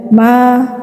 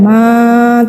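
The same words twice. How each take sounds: First: The vowel is held for one short beat. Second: The vowel is drawn out for too long. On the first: The speaker calls it right. "tapi satu ayun saja" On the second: The speaker calls it wrong. "tidak ya"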